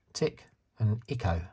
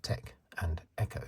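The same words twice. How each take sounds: First: New Zealand short i in "Tick and Echo"; New Zealand accent. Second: Said in the usual way. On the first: Retold or imitated. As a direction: imitate New Zealand vowels, "Echo" as "Icko". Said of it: "but she calls them". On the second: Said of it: "by their real names".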